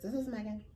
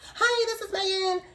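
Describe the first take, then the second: First: It is said in her own natural voice. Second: It is said in a put-on, changed voice.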